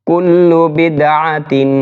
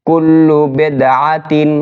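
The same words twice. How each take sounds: Both takes have the same delivery.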